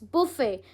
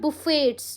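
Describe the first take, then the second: First: The final t is silent. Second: The final t is sounded. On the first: "it's बुफे" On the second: "बहुत लोग टी को pronounce करते हैं"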